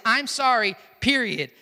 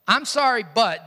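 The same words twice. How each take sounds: First: Plain sorry closed off with PERIOD; unqualified apology. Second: Insincere apology. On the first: Preacher shows the right apology, sorry without excuse. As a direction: say I'M SORRY and stop firmly on PERIOD. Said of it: "It is, "I'm sorry, period". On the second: Preacher shows a wrong apology, insincere sorry. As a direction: say I'M SORRY, then swing into BUT. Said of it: "doesn't go together". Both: Shown as a demonstration.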